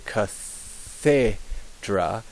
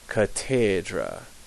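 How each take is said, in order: First: The middle consonant is a th sound. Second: The middle consonant is a plain t sound. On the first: The speaker calls it wrong. "we should say cathedra" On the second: The speaker calls it right. "it's actually catedra"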